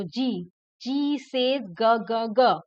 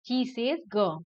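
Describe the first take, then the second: First: "जी, जी से ग" drawn out slowly, then "ग, ग" punched louder; slow letter sound. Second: Said in the usual way. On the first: Shown as a demonstration. Teacher drilling children on the G sound, slow then firm. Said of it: "जी बोलना है आपको". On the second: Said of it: "जी का sound होता है ग".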